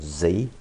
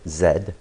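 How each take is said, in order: First: The letter is said the American way, zee. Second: The letter is said the British way, zed.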